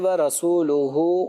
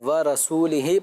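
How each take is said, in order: First: The word ends with the vowels u-hu. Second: The word ends with the vowels i-hi. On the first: The Messenger also disowns the polytheists. The speaker calls it right. "अब अगर यहाँ पे व रसूलुहु पढ़ें तो इसका माना ये बन रहा है" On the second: God disowns the polytheists and the Messenger too. The speaker calls it wrong. "अगर इसको व रसूल ही पढ़ दें तो माना ही चेंज हो जाएगा"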